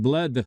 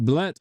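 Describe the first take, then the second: First: Bled ending in a voiced D; earlier pronunciation. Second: Blet ending in a hard T; corrected pronunciation. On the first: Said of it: "I've been pronouncing it Bled". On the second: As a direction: say Blet with a final T sound. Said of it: "it's pronounced Blet". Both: Shown as a demonstration.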